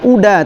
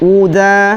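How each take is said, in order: First: The d is heavy and thick. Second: The d is light and thin. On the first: The speaker calls it wrong. "bukan uda" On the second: The speaker calls it right. "uda tipis jadinya"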